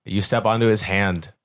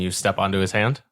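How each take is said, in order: First: Said in the usual way. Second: "hand" lifted in a rising question. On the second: Real, not acted. Game master checking the player's move, "hand" rising as a question. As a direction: ask it, pitch climbing on "hand". Asks player, then states it.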